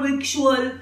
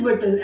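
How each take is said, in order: First: It is said with a k sound, vik-choo-al. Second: It is said like vittle, with no k. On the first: The speaker calls it wrong. "and not victual" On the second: The speaker calls it right. "The other word is whittle"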